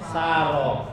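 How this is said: The name is said the Betawi way, ending 'oh'. This is how Betawi people say it. "orang Betawi bilangnya Saroh"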